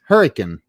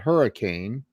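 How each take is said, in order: First: The word is squeezed almost into one syllable. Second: All syllables of the word are said fully. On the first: "almost say it in one syllable" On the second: "everywhere else would be called Hurricane"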